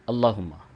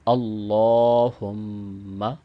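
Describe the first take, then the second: First: The vowel after the double L is short. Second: The vowel after the double L is long. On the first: The speaker calls it wrong. "इसको एक अलिफ के बराबर लंबा नहीं किया जाता बल्कि यूं पढ़ दिया जाता है" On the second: The speaker calls it right. "कम अज़ कम एक अलिफ के बराबर इसको लंबा करना होता है"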